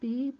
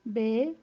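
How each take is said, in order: First: The vowel sounds like i. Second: The vowel sounds like e. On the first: The speaker calls it right. "बी ... होना चाहिए" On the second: The speaker calls it wrong. "हम यूजुअली ये पढ़ते हैं जो कि गलत है"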